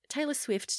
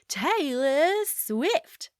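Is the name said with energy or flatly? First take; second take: flat; energetic. First: The name is said flatly and quickly. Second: The name is said with energy and emphasis. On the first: The name is just part of a routine sentence. The speaker calls it wrong. "as opposed to" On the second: The person being introduced is special. The speaker calls it right. "say their name better than they say it"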